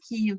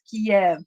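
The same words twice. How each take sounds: First: The name is said in its Ukrainian form. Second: The name is said in its Russian form. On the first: This form follows the Ukrainian name. The speaker calls it right. "that's how the Ukrainians are writing it and are pronouncing it" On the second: This form follows the Russian name. The speaker calls it wrong. "not empower the Russians, not use Kiev"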